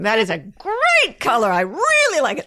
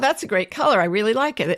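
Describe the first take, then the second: First: It is said with lively enthusiasm. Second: It is said flatly, without enthusiasm.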